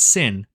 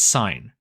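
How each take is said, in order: First: The word has a short vowel, like pin. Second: The word has a long vowel, like pine. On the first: The speaker calls it wrong. "Some students mispronounce the first one as sin" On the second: The speaker calls it right. "but actually it's sine"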